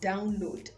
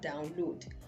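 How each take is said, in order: First: The stress is on the first syllable. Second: The stress is on the second syllable. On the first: The speaker calls it right. "the verb is download" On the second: The speaker calls it wrong. "and not download"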